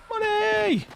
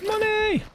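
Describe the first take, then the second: First: High, gleeful yell of money; excited shout. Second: High excited yell of money; excited shout. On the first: Retold or imitated. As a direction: belt it out like a win. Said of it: "but I said, like". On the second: Real, not acted. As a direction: shout it out gleefully. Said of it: "I muted to say money".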